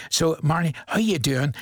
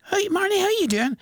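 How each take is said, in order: First: Said in the usual way. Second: Cheery call-out. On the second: Real, not acted. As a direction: call her name up high like waving across a room. Presenter calling out to birthday girl.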